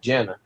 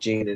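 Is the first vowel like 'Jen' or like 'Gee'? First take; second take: Jen; Gee. First: The first syllable sounds like 'Jen'. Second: The first syllable sounds like 'Gee'. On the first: This is what the locals call it. "They call it Jenna" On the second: This is not what the locals call it. "They don't call it Gina"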